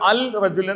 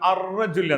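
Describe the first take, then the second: First: The article keeps a clear l sound. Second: The article's l blends into the r. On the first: The speaker calls it wrong. "അവിടെ അൽ റജുൽ എന്ന് പറയില്ല" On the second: The speaker calls it right. "ആ ശക്തിപ്രദാനം അർ റജുൽ എന്നാണ്"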